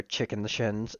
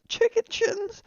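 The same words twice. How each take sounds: First: Said in the usual way. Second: Very high outraged squeak on CHICKEN SHINS; squeaky, scandalised echo; incredulous squeal. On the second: Acted. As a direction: shoot the pitch right up in mock disbelief. Repeats insult in outraged disbelief.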